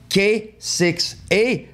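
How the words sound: The letters and number are said in English. "si on le prononce en anglais"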